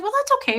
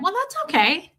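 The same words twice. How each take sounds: First: High, light brush-off; airy unbothered okay; breezy okay. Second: High, light brush-off; cheerfully unbothered; breezy okay. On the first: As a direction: sing it off lightly. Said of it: "And I said". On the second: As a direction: toss it off high and easy. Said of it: "And I went". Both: Retold or imitated.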